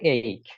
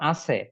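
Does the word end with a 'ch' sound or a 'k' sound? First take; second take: k sound; ch sound. First: It is said like 'ayk', ending in a 'k' sound. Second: It is said like 'achhe', ending in a 'ch' sound. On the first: The speaker calls it right. "এটার উচ্চারণ হচ্ছে এইক" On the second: The speaker calls it wrong. "না জেনে থাকেন উচ্চারণ এরকম করবেন আছে"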